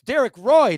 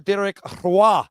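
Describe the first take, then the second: First: It is said with an English accent. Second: It is said with a Quebec French accent.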